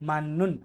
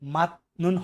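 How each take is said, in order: First: The first syllable ends in an n sound. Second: The first syllable ends in a t sound. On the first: The speaker calls it right. "এটা সঠিক উচ্চারণ কি মান নুন" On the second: The speaker calls it wrong. "এটা কিন্তু আপনার মাত নুন হবে না"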